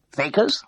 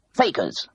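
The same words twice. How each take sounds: First: High, rising puzzled question; baffled, as if the word makes no sense; utterly bewildered. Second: Said in the usual way. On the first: A narrator's reading. Bursar puzzled by Mrs Pargeter's request, bewildered rise. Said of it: "He sounded utterly bewildered".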